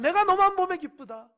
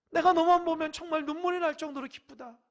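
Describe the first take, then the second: First: 너만 stressed high and loud with a falling end; joyful exclamation. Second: Tearful joy. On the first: God telling a beloved child of joy, loud. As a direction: cry 내가 너만 보면 기쁘다 out in bright delight. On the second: God overjoyed to the point of tears, loud. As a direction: stretch 눈물이 날 정도로 like joy near tears. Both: Acted. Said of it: "하나님 볼 때에".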